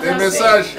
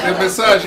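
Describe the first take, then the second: No difference in how they are said.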